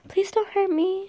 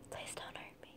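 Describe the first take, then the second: First: It is still spoken aloud in full voice. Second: It is whispered with no full voice. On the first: The speaker calls it wrong. "No, it's still crowd" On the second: The speaker calls it right. "There we go. There's a whisper"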